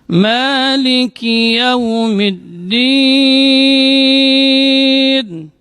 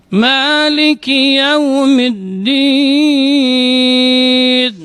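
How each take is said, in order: Both takes have the same delivery.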